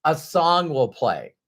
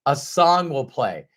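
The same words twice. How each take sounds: The two takes are said the same way.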